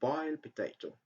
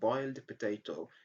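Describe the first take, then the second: First: The final d of boiled is dropped. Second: The final d of boiled is clearly pronounced. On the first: The speaker calls it right. "just say boiled potato" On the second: The speaker calls it wrong. "Instead of saying boiled potato"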